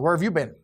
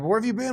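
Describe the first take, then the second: First: It is said in an accusing, harsh tone. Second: It is said in a warm, caring tone.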